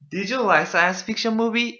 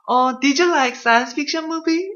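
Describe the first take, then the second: First: It is said plainly, without much energy. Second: It is said very actively, with lively energy.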